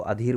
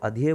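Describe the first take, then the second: First: Adhere read as "aa-dheer"; spelling-based mispronunciation. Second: Adhere said "ad-hee-ya", final r dropped; correct pronunciation. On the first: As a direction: sound the final r in adhere. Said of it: "नहीं, उसको adhere बोलोगे". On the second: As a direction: adhere ending in an open vowel. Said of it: "पर इसका जो pronunciation है वो अलग है". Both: Shown as a demonstration.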